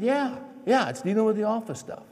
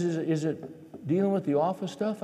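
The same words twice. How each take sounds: First: High-pitched exasperated echo of the question; testy, mock-sweet retort. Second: Said in the usual way. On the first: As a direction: snap the question back at your wife. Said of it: "I said it in a real sweet way". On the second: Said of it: "And she says".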